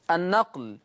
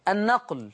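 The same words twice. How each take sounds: The two takes are said the same way.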